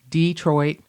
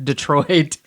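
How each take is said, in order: First: It is said in a Kentucky accent. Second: It is said in a standard accent. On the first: "one of my words when I moved here where people knew I was from Kentucky" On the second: "as opposed to"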